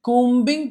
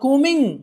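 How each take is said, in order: First: A b sound is heard after the m. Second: No b sound is heard after the m. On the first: The speaker calls it wrong. "కూంబింగ్ కాదండి" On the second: The speaker calls it right. "బి silent అవుతుంది"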